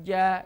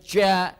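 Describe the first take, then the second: First: The syllable is voiced with no breath escaping. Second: The syllable is said with a puff of breath. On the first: The speaker calls it right. "tidak boleh mengeluarkan udara" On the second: The speaker calls it wrong. "nggak boleh ja ya"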